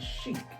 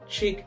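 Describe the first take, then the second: First: The word begins with an sh sound. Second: The word begins with a ch sound. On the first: It is the word used for fashion. "you could pronounce it a different way when you're speaking of fashion" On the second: It is the word for a female. "Chick as in female"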